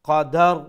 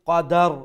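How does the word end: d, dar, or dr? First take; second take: dar; dar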